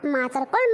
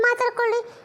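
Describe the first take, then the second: First: ಮಾತಾಡ್ಕೊಳ್ಳಿ said low with a rising end; low, shrugging ಮಾತಾಡ್ಕೊಳ್ಳಿ; low dismissive. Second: ಮಾತಾಡ್ಕೊಳ್ಳಿ jumped up high; high, taunting ಮಾತಾಡ್ಕೊಳ್ಳಿ; high mocking. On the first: Acted. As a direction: drop the first ಮಾತಾಡ್ಕೊಳ್ಳಿ low and brush it off. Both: Dismissive repeat to gossip.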